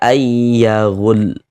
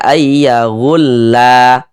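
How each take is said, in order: First: The word ends on a bare l sound. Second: The final l is followed by a vowel. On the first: The speaker calls it right. "huruf lamnya ini kita sukunkan, kita matikan" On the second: The speaker calls it wrong. "Jangan dibaca ayyahulla"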